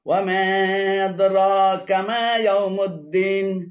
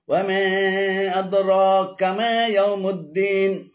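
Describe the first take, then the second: No difference in how they are said.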